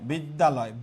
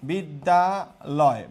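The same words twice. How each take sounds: First: Said in the usual way. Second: বিদ্যালয় very slowly, a gap after each syllable. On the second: Shown as a demonstration. Teacher showing class the syllables, বিদ্যালয় slowly broken up.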